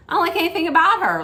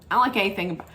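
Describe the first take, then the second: First: High, fast rush of dislike; exasperated burst. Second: Said in the usual way. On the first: Real, not acted. Vlogger blurting out her dislike of a castmate, high fast exasperated burst. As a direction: blurt it out all at once, pitched up.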